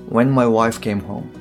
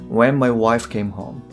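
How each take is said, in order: Both takes have the same delivery.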